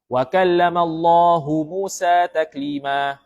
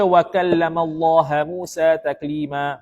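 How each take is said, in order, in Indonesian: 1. Allah berakhir dengan vokal 'u'. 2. Allah berakhir dengan vokal 'a'.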